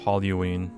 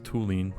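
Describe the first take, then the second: First: The 'u' vowel comes after the 'l' sound. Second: The 'u' vowel comes before the 'l' sound. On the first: The speaker calls it right. "That's how you say it? Oh, I've been saying it wrong" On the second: The speaker calls it wrong. "I thought it was just toluene. Yeah, I, I was saying the U before the L"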